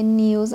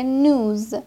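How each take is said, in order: First: نیوز with "ee-oo" after the n; non-American pronunciation. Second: نوز with a plain long "oo" straight after the n; American pronunciation. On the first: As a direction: say نیوز as "nyooz", with a y-glide. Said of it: "امریکن نمیگه نیوز". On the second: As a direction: say نوز as "nooz", no y-glide. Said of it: "اکسنت امریکن میگه نوز". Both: Shown as a demonstration.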